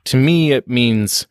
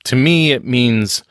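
No difference in how they are said.

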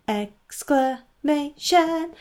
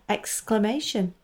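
First: Much higher, slow, stretched out with flourish; dramatic drawn-out announcement. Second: Said in the usual way. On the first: Shown as a demonstration. Host to listeners, hamming up the segment name grandly. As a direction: make the title a grand theatrical reveal. Says the show title twice.

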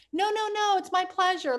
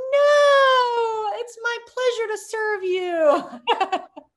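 First: Raised, eager no-no-no, all politeness; flustered polite refusal. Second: Much higher, much louder no, then a slow laughing pleasure to serve you; hammed-up servile politeness. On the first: Retold or imitated. Refusing a customer's tip as a shy new waitress, eager and polite. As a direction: brush off the tip with a sweet high protest. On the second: Mocking her past waitress self refusing a tip, loud, slow and laughing. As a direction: overplay the gushing waitress, laughing through it.

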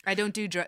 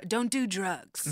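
First: Said in the usual way. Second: "don't do drugs" said slowly, every word stressed; slow emphatic. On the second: Shown as a demonstration.

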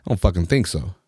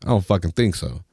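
The two takes are said the same way.

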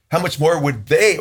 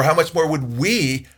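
First: "they" held long at the end; stress on they. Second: "we" drawn out slowly; stress on we. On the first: Preacher weighing others against his own side, stress on "they". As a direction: lean slowly on "they", left hanging. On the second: Preacher turning the question on his own side, stress on "we". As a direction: land long on "we" at the end. Contrasts we with they. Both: Real, not acted.

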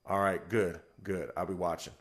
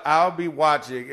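First: Low, quiet man of few words; understated, falling away softly; Marvell. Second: "I'll be watching" drawn out slowly; emphatic recap. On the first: Teammate checking on the nervous starter, low-key and terse. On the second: Teller recapping the teammate's words, slow and emphatic. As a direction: quote "I'll be watching" deliberately, at full voice. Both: Retold or imitated.

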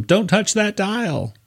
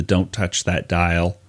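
First: "Don't touch that dial" much higher and slow, in a put-on voice; Howard Stern voice. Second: Said in the usual way. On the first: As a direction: ham up Howard Stern's warning. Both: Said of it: "Howard Stern tells him".

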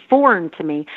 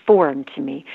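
No difference in how they are said.

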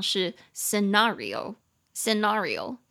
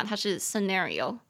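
First: "scenario" with a long open "ah", slowly; British pronunciation. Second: "scenario" with a flat American "a"; American pronunciation. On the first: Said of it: "英式发音". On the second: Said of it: "可是美式发音的话". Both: Shown as a demonstration.

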